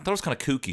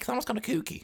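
First: It is said in the mother's mannish voice. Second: It is said in a voice that is not mannish.

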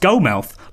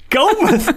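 First: The second syllable has a full 'mouth' vowel. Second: The second syllable is reduced to a weak 'muth'.

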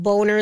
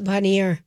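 First: It is said as a plain English word. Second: It is said with a French-sounding ending. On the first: "the lake was called Boner Lake" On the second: "they would just give it a French accent because it made it more fancy"

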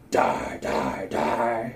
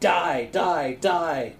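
First: Said in a put-on, menacing character voice. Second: Said in an ordinary reading voice.

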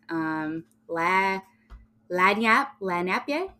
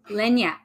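First: It is pronounced like 'la napie'. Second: It is pronounced like 'lenyap'. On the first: The speaker calls it wrong. "I'm going to butcher this" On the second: The speaker calls it right. "How do you pronounce that"

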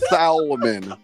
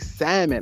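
First: The L in the word is sounded. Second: The L in the word is silent. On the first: The speaker calls it wrong. "It's an L. Salmon. But you don't pronounce it like that" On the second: The speaker calls it right. "why they say salmon?"

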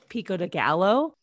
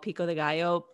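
First: The double L is said like an L. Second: The double L is said like a Y. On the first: The speaker calls it wrong. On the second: The speaker calls it right.

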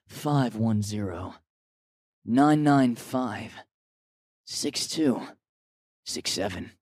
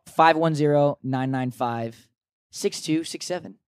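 First: The number is read slowly. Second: The number is read quickly.

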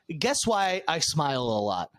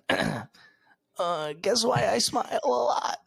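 First: It is said in the speaker's natural voice. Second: It is said in a put-on character voice. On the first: "I'm just going to read it in normal voice" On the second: "I'm going to try to do the voice again"

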